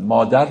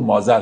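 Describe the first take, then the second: First: The middle consonant is a d sound. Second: The middle consonant is a z-like sound. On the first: This is how the word is said today. "مادر رو مازر تلفظ میکنن" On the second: This is how the word was said in old times. "مادر رو مازر تلفظ میکنن"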